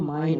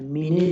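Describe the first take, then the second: First: One syllable with a long i sound. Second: Two syllables with a short i sound. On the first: The speaker calls it right. "अब पता है माइन होता है" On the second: The speaker calls it wrong. "मिने नहीं होगा"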